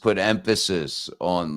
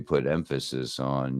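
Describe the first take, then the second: First: The pitch moves up and down with emphasis. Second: The pitch stays flat and even throughout. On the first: "like I just did there" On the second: "more more monotone, not really a whole lot of fluctuation"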